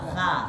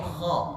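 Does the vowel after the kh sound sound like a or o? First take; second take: a; o. First: The vowel sounds like a plain open a. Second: The vowel sounds heavy and rounded, like o. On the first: The speaker calls it wrong. "Kha, kha itu salah" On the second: The speaker calls it right. "maka agak berbentuk aksen o, bukan kha"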